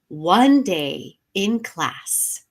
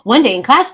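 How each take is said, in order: First: It is read at a slow pace. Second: It is read at a very fast pace. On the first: "I'm going to slow it down this time" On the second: "Now I'm going to do it really fast"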